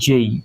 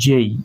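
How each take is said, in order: No difference in how they are said.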